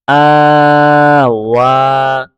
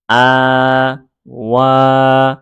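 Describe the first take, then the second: First: আ flowing slowly straight into ওয়া; slow, connected syllable chant; letters read together. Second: আ and ওয়া long-held with a gap; slow, separated syllable chant; letters read separately. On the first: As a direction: join আ and ওয়া in one held breath. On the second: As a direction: sound out আ, then pause before ওয়া. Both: Shown as a demonstration. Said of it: "আমি দুইভাবে পড়ে".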